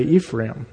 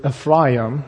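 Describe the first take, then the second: First: Said in the usual way. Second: Ephraim said as "ef-RYE-um"; Hebrew-style pronunciation. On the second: Shown as a demonstration. Teacher giving the original name to the class, Ephraim said "ef-RYE-um". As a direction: stress a long "rye" in the middle of Ephraim. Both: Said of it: "or as we would say".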